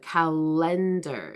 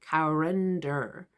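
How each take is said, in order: First: The middle consonant is a clear L sound. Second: The middle consonant is an R-like sound. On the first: The speaker calls it right. "you're coming forward at the front" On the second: The speaker calls it wrong.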